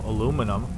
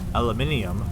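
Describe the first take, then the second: First: The word is said with four syllables, American style. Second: The word is said with five syllables, British style. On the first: "I know, I know, aluminum" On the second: "they normally say aluminium"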